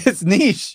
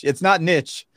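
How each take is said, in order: First: NICHE said "neesh", higher, with a long ee; corrected pronunciation. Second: NICHE said "nitch", short i and tch; rejected pronunciation. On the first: Co-host insisting to his friend, niche as "neesh". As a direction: insist on niche rhyming with leash. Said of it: "That's how you pronounce it". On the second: Co-host rejecting his friend's way, niche as "nitch". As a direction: say niche to rhyme with pitch. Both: Shown as a demonstration.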